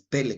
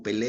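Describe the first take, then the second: First: "Pele" with the first E stressed; stress on first syllable. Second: "Pelé" with the final E stressed; stress on last syllable. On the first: Preacher corrects the footballer's pronunciation, stress on first syllable. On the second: Preacher cites the footballer's name for contrast, stress on last syllable. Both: Shown as a demonstration. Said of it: "con acento en la primera E".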